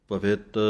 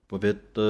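The two takes are said the same way.

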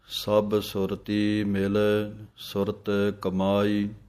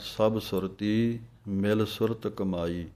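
First: The pause falls right after the word mil. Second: The pause falls somewhere other than after mil. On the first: The speaker calls it right. "ਸੁਰਤੀ ਮਿਲ, ਇੱਥੇ ਵਿਸਰਾਮ ਹੈ।" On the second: The speaker calls it wrong. "ਇਹ ਵਿਸਰਾਮ ਸ਼ੁੱਧ ਨਹੀਂ ਹੈ"

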